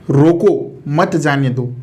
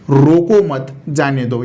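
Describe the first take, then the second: First: The pause comes after 'रोको'. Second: The pause comes after 'मत'.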